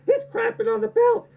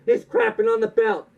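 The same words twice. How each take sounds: First: He's crapping on the belt in a much higher squeak; panicked official. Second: He's crapping on the belt only lightly raised; mild panicked official. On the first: NWA official watching the belt thrown down, high squeak. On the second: NWA official watching the belt thrown down, lightly raised. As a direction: repeat He's crapping on the belt nearer the normal voice. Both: Retold or imitated. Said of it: "The guy in the N W A is like".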